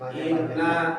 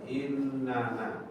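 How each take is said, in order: First: It is said as two syllables, inna. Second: It is said with an extra final syllable, na. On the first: "Ini lebih ringkas ya. Inna tinggal panjang aja" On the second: "atau punya dua"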